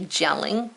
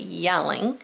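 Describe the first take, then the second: First: The word begins with a J sound. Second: The word begins with a Y sound. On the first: The speaker calls it wrong. "We don't say gelling" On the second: The speaker calls it right. "we say yelling"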